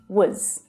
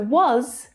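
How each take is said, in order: First: The word has a short, weak vowel. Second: The word has a full, clear vowel.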